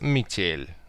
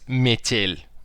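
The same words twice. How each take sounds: First: The word is said in a simpler, reduced way. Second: The word is said in a careful, fuller way. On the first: The speaker calls it right. "like метель, uh, you know, simpler" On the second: The speaker calls it wrong. "We not usually say uh, this like this"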